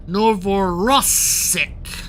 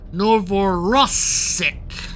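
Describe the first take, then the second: First: The R is strongly rolled with a trill. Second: The R is strongly rolled with a trill.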